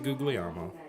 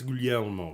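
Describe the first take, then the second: First: The middle 'gli' has a hard G sound. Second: The middle 'gli' sounds like a soft L. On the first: This is the speaker's own everyday pronunciation. The speaker calls it wrong. "I say Guglielmo, but I'm incorrect" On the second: This is how Italians pronounce the name. The speaker calls it right. "it's Guglielmo according to the Italians"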